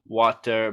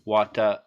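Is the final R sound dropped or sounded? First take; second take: sounded; dropped. First: The final R sound is clearly pronounced. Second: The final R sound is left off.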